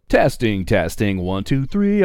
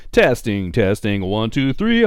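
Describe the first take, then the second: First: Said in the usual way. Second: Mic check, rising. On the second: Shown as a demonstration. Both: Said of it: "mic check".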